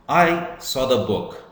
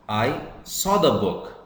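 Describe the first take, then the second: First: The stress is on the word I. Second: The stress is on the word saw. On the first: It was me and not somebody else who saw it. "Here, I is emphasized, I is stressed" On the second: I only saw it and did not take it. "Here it means I saw the book, but I did not take it"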